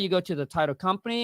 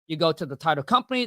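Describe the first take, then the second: First: The voice is flat and plain. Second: The voice is lively and expressive. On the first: The speaker just reads it without personality. The speaker calls it wrong. "I I just don't say" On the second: The speaker adds personality to the call. The speaker calls it right. "my tone is is is, like, it's different?"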